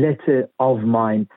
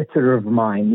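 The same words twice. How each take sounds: First: Letter of mine with the R of letter dropped; non-rhotic letter, a gap before of mine; unlinked R. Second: Letter of mine run together, R sounded into of; linked "letter of mine" with an audible R; linking R. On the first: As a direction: say letter of mine as "lettuh of mine", no linking. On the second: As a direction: say letter of mine as one unit, "letter-rof mine". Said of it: "چون بایستی اینو پشت سر هم بگیم". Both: Shown as a demonstration.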